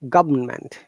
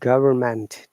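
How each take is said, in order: First: It is said with a British accent, no R. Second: It is said with an American accent, R pronounced. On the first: "in British English is government. R is silent" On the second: "And American English"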